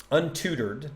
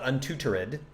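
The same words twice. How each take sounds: First: "Untutored" in three syllables, un-TOO-terd; elided ending. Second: "untutored" in four syllables, un-too-ter-ED; full -ed ending. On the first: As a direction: say "Untutored" with the -ed knocked off. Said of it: "They knock it off". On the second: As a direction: say "untutored" with a separate final -ed. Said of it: "so that you know it's not". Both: Shown as a demonstration.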